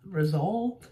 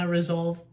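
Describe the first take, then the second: First: Resolve with a questioning rise; doubting the word. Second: Said in the usual way. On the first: Shown as a demonstration.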